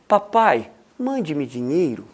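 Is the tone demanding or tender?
tender. It sounds sweet and loving.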